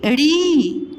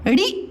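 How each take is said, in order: First: ड़ी held as a long "reee"; ड़ी stretched slowly; long vowel. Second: ड़ी as a quick "ri"; ड़ी cut short; short vowel. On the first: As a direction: draw out the ee in ड़ी. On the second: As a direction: keep ड़ी brief. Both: Shown as a demonstration. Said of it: "उच्चारण में समय लग रहा".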